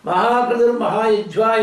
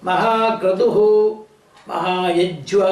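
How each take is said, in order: First: The first word ends in an r sound. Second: The first word ends in an h sound. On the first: "என்று சொன்னாலும் தப்பு கிடையாது" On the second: "மகாக்ரதுஹு அப்படி சொல்லி சொன்னேன்"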